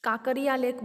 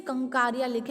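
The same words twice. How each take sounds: First: काकरिया with no N, as KAA-ka-ri-ya; colloquial pronunciation. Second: कंकारिया with an N after the first KA; formal pronunciation. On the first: Teacher giving the name locals use, colloquial काकरिया without the N. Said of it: "वैसे अपन बोलते हैं ना". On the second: Teacher reading out the lake's name, formal pronunciation कंकारिया with the N. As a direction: say कंकारिया as kan-KAA-ri-ya. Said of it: "pronunciation अगर हम करने जाएंगे तो". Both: Shown as a demonstration.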